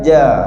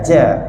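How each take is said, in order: First: The ja has no puff of air. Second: The ja has a puff of air. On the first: The speaker calls it right. "Tengah lidah ja" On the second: The speaker calls it wrong. "Hujung lidah saya sebut ja ja"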